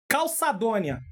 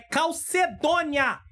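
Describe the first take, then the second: First: The second syllable sounds like 'ça'. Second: The second syllable sounds like 'ce'. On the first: The speaker calls it wrong. "uma palavra que eu falei durante uma lição aí, errada" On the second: The speaker calls it right. "É calcedônia"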